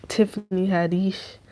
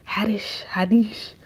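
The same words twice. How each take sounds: First: Said in the usual way. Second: Haddish whispered, breathy and hushed. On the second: Real, not acted. Repeating the comedian's name to viewers, whispered.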